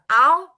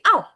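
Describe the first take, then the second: First: The pitch does not drop sharply. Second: The pitch drops sharply, like a cry of pain. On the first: The speaker calls it wrong. "bukan au" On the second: The speaker calls it right. "tapi au, gitu kan"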